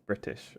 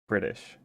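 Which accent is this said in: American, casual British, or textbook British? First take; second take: textbook British; American. First: It is said in a careful textbook British accent. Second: It is said in an American accent. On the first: "instead of" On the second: "you will learn it with the accent of like an American person"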